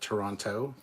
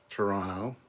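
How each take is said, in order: First: The second T is clearly pronounced. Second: The second T is dropped. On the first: This is how an outsider says the name. "I love how La'an calls it Toronto" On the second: This is how local people say the name. "They don't say the second T usually"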